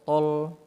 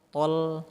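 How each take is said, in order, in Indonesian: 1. Bunyi l-nya tebal. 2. Bunyi l-nya tipis. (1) "jangan sampai lamnya tebal bunyinya" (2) "tapi dia tol tol"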